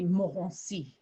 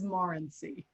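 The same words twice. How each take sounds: First: The name is said with a French pronunciation. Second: The name is said with an American pronunciation. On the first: "the French pronunciation, which I do very badly" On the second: "the Americanized version of that"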